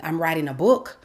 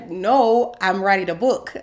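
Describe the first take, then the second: First: "book" rising as if half asking; tentative answer. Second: Loud, insistent inner protest. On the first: She admits her project to mentor, tentative. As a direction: offer it unsurely, lifting on BOOK. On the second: She mentally rejects being called an author, protesting. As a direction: push back hard, NO drawn high and loud. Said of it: "I'm thinking". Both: Retold or imitated.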